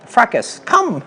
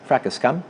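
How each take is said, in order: First: The command is said with lively, animated energy. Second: The command is said flatly, with little energy.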